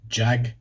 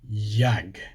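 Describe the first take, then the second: First: It begins with a hard J sound. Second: It begins with a soft J sound. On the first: This is the English pronunciation. "It's a hard J in English" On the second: This is the Swedish pronunciation. "in Swedish, it's a soft J"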